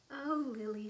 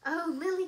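First: Falling motherly exclamation, fairly loud; gentle dismay. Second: Loud, high motherly outcry; crying out. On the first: Mother sees the powder mess, mildly dismayed. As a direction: say it with mild dismay, pitch near normal. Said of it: "said her mother". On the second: Mother cries out to Lily over the rough rocking, loud alarm. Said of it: "cried her mother". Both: A narrator's reading.

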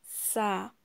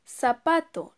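First: "Zapato." broken into "za-pa-to"; splitting the word for young learners; split into syllables. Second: Said in the usual way. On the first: Shown as a demonstration. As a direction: sound out each beat. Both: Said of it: "la separamos".

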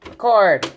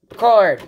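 No difference in how they are said.

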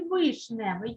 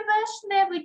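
First: Вишневий with a clear «и» first; clear Y variant. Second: Вишневий said as «вешневий»; clear E variant. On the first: Teacher offers pupils a spelling choice, вишневий with first vowel «и». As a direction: say «и», not «е», in the first syllable of вишневий. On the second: Teacher offers pupils a spelling choice, вишневий with first vowel «е». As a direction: open «е» in the first syllable of вишневий, raised pitch. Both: Shown as a demonstration. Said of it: "як ми будемо писати?".

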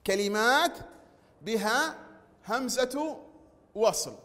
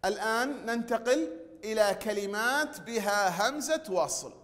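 First: كلمات بها همزة وصل, cada palabra separada por pausas; spaced for dictation. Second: Said in the usual way. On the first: Shown as a demonstration. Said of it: "teacher repeats phrase word by word". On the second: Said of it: "teacher states topic, then repeats".

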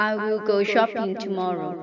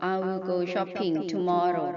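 First: Shopping stressed, whole line very slow; slow model reading. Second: Said in the usual way. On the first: Shown as a demonstration. Teacher reading a model sentence for students to repeat, slowly. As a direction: read it word by word for students. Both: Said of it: "หัดอ่านตามประโยคเหล่านี้".

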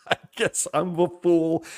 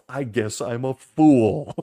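First: «I guess I'm a fool» through a laugh, a bit higher. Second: Said in the usual way. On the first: Real, not acted. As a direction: laugh out the word «fool» in disbelief. Repeats it laughing.

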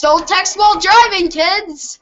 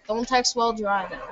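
First: Mock safety warning. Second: Soft, hurried mock warning; quick quiet aside. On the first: Player lecturing kids after a whoops, hammed-up warning. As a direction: call it out like a public announcement. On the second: Player repeating the safety warning, quick quiet aside.

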